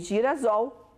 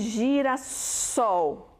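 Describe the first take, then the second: First: The middle consonant is a buzzing Z sound. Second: The middle consonant is a hissing S sound. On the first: The speaker calls it wrong. "vai ficar o som de Z" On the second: The speaker calls it right. "para ter o som do S, ter dois S's"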